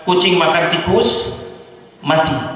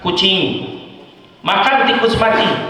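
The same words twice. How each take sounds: First: The pause comes after tikus. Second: The pause comes after kucing.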